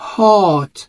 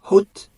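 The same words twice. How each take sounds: First: The vowel sounds like an open 'ah'. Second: The vowel sounds like a rounded 'oh'. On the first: The speaker calls it right. "بنقول عليها hot، hot، فعاملة برضو صوت ال آ" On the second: The speaker calls it wrong. "الكلمة دي مش بنقول عليها hot"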